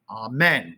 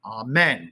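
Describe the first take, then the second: First: The second syllable carries strong emphasis. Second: The second syllable carries strong emphasis.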